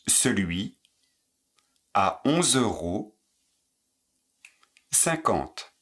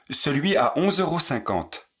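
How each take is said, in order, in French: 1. La phrase est dite lentement. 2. La phrase est dite à un rythme naturel. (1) "Moins vite"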